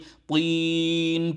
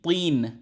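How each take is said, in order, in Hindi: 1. स्वर को बहुत लंबा खींचा जाता है। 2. स्वर को मध्यम रूप से लंबा रखा जाता है। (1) "इतना लंबा नहीं है" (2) "थोड़ा सा लंबा पड़ेंगे, यानी तीन, इतना सा लंबा"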